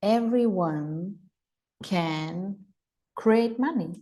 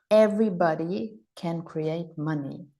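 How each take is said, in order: First: Everyone slow and drawn out, can and create money spaced and weighted; slow and deliberate, with pauses between Everyone, can and create money; slow emphatic affirmation. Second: Said in the usual way. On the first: Shown as a demonstration. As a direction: spell out each word so it sinks in. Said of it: "give your brain a point of creation". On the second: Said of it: "Write that in the chat".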